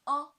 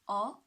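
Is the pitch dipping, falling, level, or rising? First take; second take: level; rising. First: The pitch stays high and level. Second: The pitch rises from mid to high. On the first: "The first tone" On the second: "the second tone, right, from three to five"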